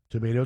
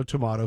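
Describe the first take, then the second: First: TOMATO said "tuh-MAY-toe"; long-A tomato. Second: TOMATO said "tuh-MAH-toe"; broad-A tomato. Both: Shown as a demonstration. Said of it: "whatever you wanna call 'em".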